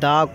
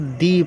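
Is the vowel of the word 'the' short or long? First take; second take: short; long. First: The vowel is short, like 'thuh'. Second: The vowel is long, like 'thee'.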